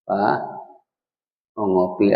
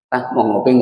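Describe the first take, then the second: First: It is spoken softly and tenderly. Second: It is spoken bluntly and harshly. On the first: The wife speaks with love and good manners. The speaker calls it right. "bicara sama suami lembut" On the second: The wife speaks without good manners. The speaker calls it wrong.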